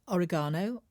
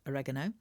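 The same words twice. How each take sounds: First: It is said with a British pronunciation. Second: It is said with an American pronunciation.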